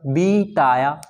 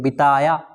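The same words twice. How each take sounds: First: The first vowel is held long. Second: The first vowel is held short. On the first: The speaker calls it wrong. "अगर इस बी को अधिक समय देंगे" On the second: The speaker calls it right. "बी को कितना अल्प समय दे रहे हैं"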